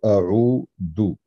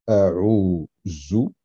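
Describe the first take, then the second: First: The middle consonant is a d sound. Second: The middle consonant is a z sound. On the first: "ou un del" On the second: "prononcer un zay"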